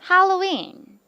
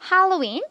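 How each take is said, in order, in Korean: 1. 단어 전체에서 음이 평평하게 유지돼요. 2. 단어 끝에서 음이 올라가요. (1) "이 정도로 flat 이렇게 좀 평평하게" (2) "이렇게 올리셔도 되고"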